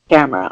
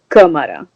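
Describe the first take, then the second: First: The name sounds like the English word camera. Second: The name is said with Brazilian Portuguese sounds. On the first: "it should be pronounced camera" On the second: "the official Brazilian pronunciation"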